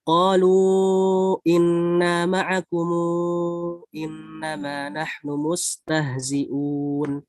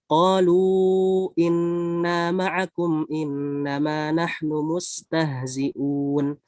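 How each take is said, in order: First: Long vowels held longer; 'kum' stretched to 'kumu'. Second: Long vowels held longer; 'kum' ends closed. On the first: "tawasud munfasil, disertai dengan di sini ada silah. Tapi silahnya di sini dipanjangkan empat harokat" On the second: "tawasun ma'aliskan"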